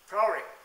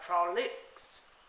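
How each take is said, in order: First: The stress is on the first syllable. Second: The stress is on the second syllable. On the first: "with the stress on the first syllable by the British" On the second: "the stress is on the second syllable by the American"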